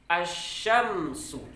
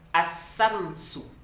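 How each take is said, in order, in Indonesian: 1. Huruf tengahnya bunyi 'sh' yang berdesis. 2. Huruf tengahnya bunyi 's' yang mendesis. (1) "Ada bunyi tafasyinya dulu pada huruf shin" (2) "Jangan dibaca dua-duanya dengan sin misalnya"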